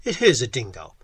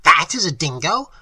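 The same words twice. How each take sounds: First: Lower, firm insistence. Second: Loud, incredulous scornful question. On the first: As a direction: state it as settled fact. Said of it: "I said firmly". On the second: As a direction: fling it out as a mocking question. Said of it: "cried Professor Small scornfully". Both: A narrator's reading.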